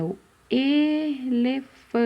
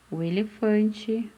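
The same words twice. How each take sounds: First: Elefante slow and higher, long held E; stretched first vowel. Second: Said in the usual way. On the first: Shown as a demonstration. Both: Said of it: "o que que começa com a letrinha E".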